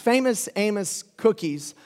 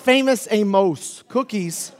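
First: Amos is said so it rhymes with famous. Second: Amos is said so it does not rhyme. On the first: The speaker calls it right. "So it's famous Amos cookies" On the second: The speaker calls it wrong. "It's not famous Amos cookies, because that doesn't rhyme"

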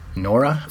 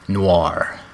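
First: The word is said with two syllables. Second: The word is said with one syllable. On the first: "I always said Nora" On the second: "I think it's noir"

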